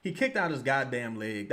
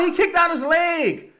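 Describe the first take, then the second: First: Said in the usual way. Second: High furious yell; shouting. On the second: Real, not acted. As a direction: scream it at the ref. Shouted protest, then calmer repeat.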